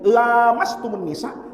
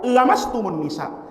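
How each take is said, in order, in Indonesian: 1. Vokal pertama dibaca panjang. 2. Vokal pertama dibaca pendek. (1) "baca panjang, pakai lam alif, mat tobi'i" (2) "bacanya pendek"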